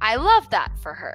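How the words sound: It is said sincerely, with genuine happiness.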